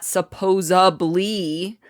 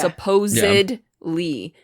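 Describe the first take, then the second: First: The word has a b sound before the ending. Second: The word has a d sound before the ending. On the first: The speaker calls it wrong. "not supposably. There's no B in that word" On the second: The speaker calls it right.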